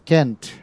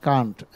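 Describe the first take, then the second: First: It is said with an American accent. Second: It is said with a British accent.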